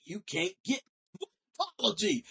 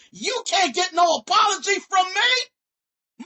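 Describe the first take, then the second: First: Said in the usual way. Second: Much higher and louder, slowed down, stressing "no". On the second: Real, not acted. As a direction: stretch "no" out and belt it.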